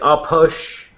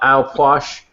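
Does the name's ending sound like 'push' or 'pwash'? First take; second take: push; pwash. First: The ending sounds like the word push. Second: The ending sounds like pwash, rhyming with wash. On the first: The speaker calls it wrong. "Ridge is going to yell at me later for saying that wrong" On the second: The speaker calls it right. "That's how you pronounce it"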